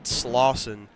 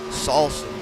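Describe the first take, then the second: First: The name begins with the sound 'Slaw'. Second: The name begins with the sound 'Sal'. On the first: The speaker calls it right. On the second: The speaker calls it wrong.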